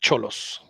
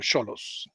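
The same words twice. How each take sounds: First: The name begins with a 'ch' sound. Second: The name begins with an 's' sound. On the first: The speaker calls it wrong. "not Cholos" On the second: The speaker calls it right. "it's like technically Cholos, is it not? Like Sochi or Xochimilco"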